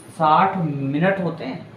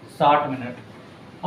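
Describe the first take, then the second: First: Said in the usual way. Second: साठ minute drawn out slowly, each word held; slow repeat. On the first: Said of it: "teacher stating the fact". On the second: Shown as a demonstration. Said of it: "teacher repeats it slowly".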